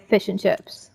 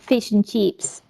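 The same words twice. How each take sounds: First: It is said in a New Zealand accent. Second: It is said in an Australian accent. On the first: "but we say" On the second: "Australians say like"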